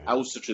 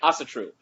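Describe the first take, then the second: First: It is said with an Icelandic pronunciation. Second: It is said with an American pronunciation. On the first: "That's the Icelandic pronunciation" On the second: "I'm American, so I say Asatru"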